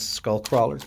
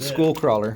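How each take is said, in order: First: The first word has a short vowel, like skull. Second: The first word has a long vowel, like school.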